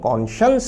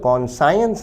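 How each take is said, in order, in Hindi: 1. बीच की ध्वनि 'shee' जैसी है, एक मुलायम sh ध्वनि। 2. बीच की ध्वनि 'sigh' जैसी है, जैसे साइंस में। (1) "कॉन्शियंस है" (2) "ये कॉन्साइंस नहीं है"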